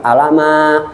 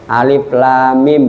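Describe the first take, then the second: First: The letters are run together as one word. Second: Each letter name is said separately. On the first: The speaker calls it wrong. "bukan alama" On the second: The speaker calls it right. "Alif lam mim bukan alama"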